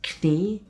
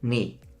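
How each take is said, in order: First: The word begins with a pronounced k sound. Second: The word begins with an n sound, k silent. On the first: The speaker calls it wrong. "not knie" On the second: The speaker calls it right. "it's knee"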